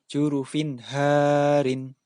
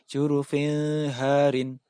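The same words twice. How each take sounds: First: The n sound is pronounced clearly. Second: The n sound is not pronounced clearly. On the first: The speaker calls it right. "harus dibaca" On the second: The speaker calls it wrong. "Tidak boleh dibaca"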